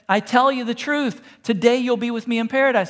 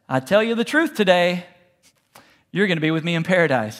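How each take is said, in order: First: The pause comes before the word 'today'. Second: The pause comes after the word 'today'.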